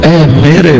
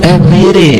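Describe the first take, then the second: Both takes have the same delivery.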